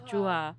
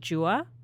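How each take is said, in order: First: The name is pronounced the Albanian way. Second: The name is pronounced the English way. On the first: The speaker calls it right. "It's Juha" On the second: The speaker calls it wrong. "that's like an English way to pronounce it"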